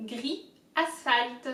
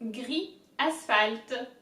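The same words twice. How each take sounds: First: Gris, asphalt said slowly and carefully; slow demo. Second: Gris, asphalt drawn out very slowly; slower demo. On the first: Teacher modelling the words slowly for viewers. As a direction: spell out gris, asphalt for learners. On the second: Teacher repeating the words even slower for viewers. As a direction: stretch gris, asphalt right out. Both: Shown as a demonstration. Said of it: "So all together".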